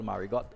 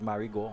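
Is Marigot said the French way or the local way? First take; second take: local; French. First: It is said with the local island pronunciation. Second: It is said with a French pronunciation. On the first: This is how people here say it. "what we call Marigot" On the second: This is how it would be said in French. "in French you may have pronounced it as Marigot"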